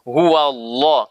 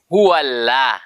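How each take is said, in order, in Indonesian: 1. Huruf L-nya tebal dan penuh di mulut. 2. Huruf L-nya tipis dan ringan di mulut. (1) "sepakan penuh seperti penuh mulut kita" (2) "Kalau tipis"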